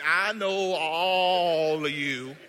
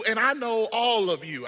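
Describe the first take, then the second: First: "all" stretched very long and loud; slow down and hold "all" with full force; drawn-out stress on "all". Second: Said in the usual way. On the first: Acted. Repeats line with drawn-out emphasis.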